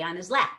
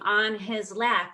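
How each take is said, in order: First: The h in 'his' is dropped. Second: The h in 'his' is pronounced. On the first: "we just say" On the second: "instead of saying"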